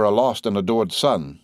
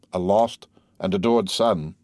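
First: Said in the usual way. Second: Slow echo, lingering on the words; wistful echo. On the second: A narrator's reading. Major echoes the letter about his son, slowly wistful. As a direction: repeat it slowly, dwelling on each word.

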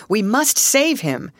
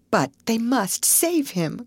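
First: Slow, higher, determined call; rallying call. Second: High, slow, anxious plea; pleading cry. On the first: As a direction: urge the men on with weight on each word. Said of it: "he called to the male members". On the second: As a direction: plead without raising the volume. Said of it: "cried Alice". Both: A narrator's reading.

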